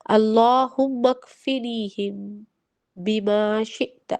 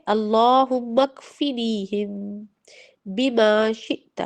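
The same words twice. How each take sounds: First: Put-on each syllable drawn out slowly for children to repeat; teacher slowly reciting a dua for children to learn; slow recitation. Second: Drawn out again, syllable by syllable; teacher repeating the dua slowly for children to echo. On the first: Very slow, careful dua recitation. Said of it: "اس کے لیے ایک چھوٹی سی دعا ہے". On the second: Slow, careful repeated recitation. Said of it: "ٹھیک ہے؟". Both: Shown as a demonstration.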